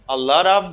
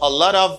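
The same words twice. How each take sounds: The two takes are said the same way.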